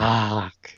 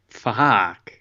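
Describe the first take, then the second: First: It sounds satisfied. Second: It sounds very surprised.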